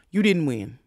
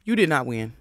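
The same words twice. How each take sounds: First: Said in the usual way. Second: "did not" spaced and hit apart; stress on did not. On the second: Shown as a demonstration. Telling Rolly the truth, leaning on "did not".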